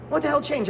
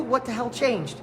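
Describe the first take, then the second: First: Higher, punchier repeat of "What the hell changed?"; emphatic. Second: Said in the usual way. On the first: Real, not acted. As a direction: hit "What" hard, rising to a push.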